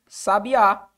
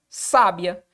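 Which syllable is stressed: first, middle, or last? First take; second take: last; first. First: The stress is on the last syllable. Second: The stress is on the first syllable.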